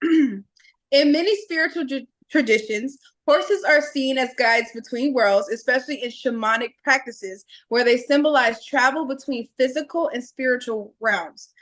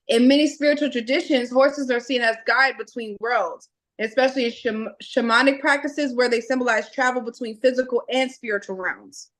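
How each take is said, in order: First: It is said slowly. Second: It is said fast.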